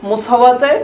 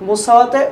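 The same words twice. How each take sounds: The two takes are said the same way.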